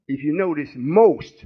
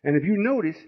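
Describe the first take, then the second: First: Most drawn out and falling; stress on most. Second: Said in the usual way. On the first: Shown as a demonstration. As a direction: lean hard into the word most. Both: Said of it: "I'm emphasizing the word most".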